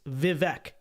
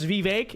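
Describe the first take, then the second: First: The last syllable rhymes with 'deck'. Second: The last syllable rhymes with 'ache'. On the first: "It's not ache. It's Vivek" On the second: "so it's Vivek? ... That's not how it's pronounced in English"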